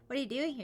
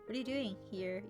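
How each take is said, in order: First: It is asked in an accusing tone. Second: It is asked in a curious tone.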